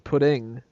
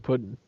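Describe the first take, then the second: First: The final G sound is pronounced. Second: The final G sound is dropped. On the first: The speaker calls it wrong. "if she says pudding, then there's definitely an issue" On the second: The speaker calls it right. "She's got to say pudding. ... There's no G in it"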